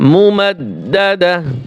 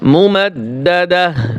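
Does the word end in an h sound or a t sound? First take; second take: h sound; h sound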